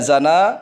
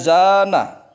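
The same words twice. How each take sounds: First: The first vowel is kept short. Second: The first vowel is held long. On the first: It means to commit adultery. The speaker calls it wrong. "tapi dibaca zana maka salah arti" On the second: It means to adorn. The speaker calls it right. "Seharusnya dibaca zana, zanya yang panjang"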